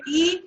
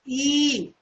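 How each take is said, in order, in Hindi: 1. स्वर बस थोड़ी देर के लिए बोला जाता है। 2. स्वर लगभग दुगुनी देर तक बोला जाता है। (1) "हर्ष स्वर बोल रहे हैं" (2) "दीर्घ स्वर बोल रहे हैं"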